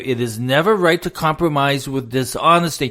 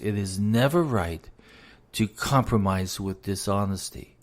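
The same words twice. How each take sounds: First: The sentence is said more loudly. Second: The sentence is said at normal volume.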